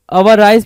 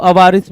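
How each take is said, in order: First: अवाराइस ending in a long "-ice" sound; variant pronunciation. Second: अवारिस ending in a short "-ris"; alternative pronunciation. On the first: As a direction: say अवाराइस with the last syllable rhyming with "rice". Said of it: "अवाराइस भी पढ़ते हैं कुछ लोग". (अवाराइस, आख़िर में "राइस" वाला उच्चारण) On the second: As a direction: say अवारिस with a short i in the last syllable. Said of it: "अवारिस भी पढ़ते हैं". (अवारिस, आख़िर में छोटी इ वाला "रिस") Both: Shown as a demonstration.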